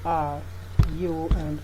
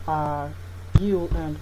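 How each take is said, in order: Both takes have the same delivery.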